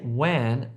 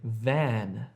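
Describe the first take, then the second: First: The word begins with a w sound. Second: The word begins with a v sound. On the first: The speaker calls it wrong. "Don't say wan" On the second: The speaker calls it right. "say van"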